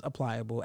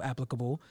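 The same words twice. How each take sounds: First: "applicable" said as "apply-able"; mispronunciation. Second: Said in the usual way. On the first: Real, not acted. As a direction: stress the "ply" in "applicable", like apply plus able. Slip corrected right afterwards.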